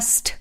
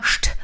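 First: "St" with a sharp s before the t; s-t pronunciation. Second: "Scht" with sh before the t; sh-t pronunciation. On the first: Explaining German spelling to learners, s-t sound in "St". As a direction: say "St" with plain s, not sh, then t. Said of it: "und manchmal St". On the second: Explaining German spelling to learners, sh-t sound in "Scht". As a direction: say "Scht" with a hushing sh, closed by t. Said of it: "warum ein S und ein T manchmal Scht". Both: Shown as a demonstration.

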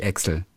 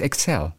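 First: Excel stressed on EX; common first-syllable stress. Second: Excel stressed on CEL; correct second-syllable stress. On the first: Podcaster repeats the wrong form, EX-el. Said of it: "Es heißt nicht Excel". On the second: Podcaster repeats the right form, ek-SELL. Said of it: "es heißt Excel". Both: Shown as a demonstration.

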